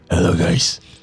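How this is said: It is said in a put-on character voice.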